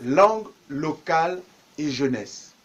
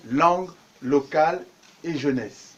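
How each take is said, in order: Both takes have the same delivery.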